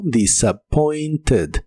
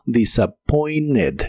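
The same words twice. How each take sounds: First: "disappointed" very slowly, T and soft E in the ending; soft E, T sounded. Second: "disappointed" very slowly, as "disappoined" without T; silent T. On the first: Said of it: "se pronuncia con la E suave". ("disappointed" lento, con T y E suave) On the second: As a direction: drop the T in conversational "disappointed". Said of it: "es muy común que no se pronuncie la T". ("disappointed" lento, sin pronunciar la T) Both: Shown as a demonstration.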